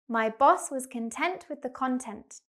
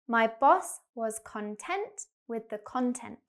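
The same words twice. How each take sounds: First: The sentence is spoken quickly. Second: The sentence is spoken slowly. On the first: "Now like a native speaker" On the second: "We're going to go slowly first"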